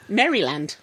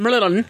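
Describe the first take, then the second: First: "Maryland" said fully as "Merry-land"; each vowel in "Maryland" sounded out; spelled-out pronunciation of Maryland. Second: "Maryland" run together as "Murrilun"; "Maryland" squashed, with weak vowels; local pronunciation of Maryland. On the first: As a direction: give "Maryland" a clear "land" ending. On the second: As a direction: swallow the middle of "Maryland" and drop the final d. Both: Shown as a demonstration. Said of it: "we think you pronounce Maryland".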